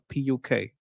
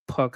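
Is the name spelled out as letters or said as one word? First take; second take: letters; one word. First: It is spelled out as three separate letters. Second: It is said as one word, like puck. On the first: The speaker calls it right. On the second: The speaker calls it wrong.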